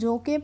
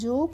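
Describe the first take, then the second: First: The final e is sounded as an extra syllable. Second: The final e is silent, giving one syllable. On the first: The speaker calls it wrong. "नहीं" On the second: The speaker calls it right. "इसका हम pronunciation यानी कि उच्चारण नहीं करते हैं"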